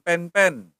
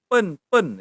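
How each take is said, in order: First: Slow, loud pen-pen with "eh" vowels; wrong pronunciation. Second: Slow pen-pen with schwa vowels; correct pronunciation. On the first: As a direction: say pen-pen as "pehn-pehn". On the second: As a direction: say pen-pen as "puhn-puhn", louder. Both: Shown as a demonstration. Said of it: "bukan pen-pen".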